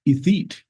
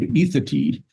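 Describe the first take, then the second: First: The name is said as it is spelled. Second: The name is said in the local way. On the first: This is how an outsider would read it. The speaker calls it wrong. "anybody looking at it would think" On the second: This is what the town is actually called. The speaker calls it right. "a town uh, near near us in Lander called"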